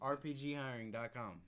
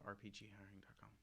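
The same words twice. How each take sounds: First: It is said loudly. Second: It is said quietly.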